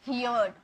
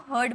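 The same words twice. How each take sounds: First: "हियर्ड" pronounced hee-yard, with an ee-glide; students' mispronunciation. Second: "हर्ड" said as one syllable, hurd; correct pronunciation. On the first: Retold or imitated. Teacher showing students' common error, "हियर्ड" said hee-yard. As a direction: say "हियर्ड" wrongly as hear plus d. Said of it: "बहुत सारे student इसे हियर्ड बोलते हैं". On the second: Shown as a demonstration. Teacher correcting students, "हर्ड" pronounced as hurd. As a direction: say "हर्ड" with no ee-glide, rhyming with bird. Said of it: "हर्ड बोलना है".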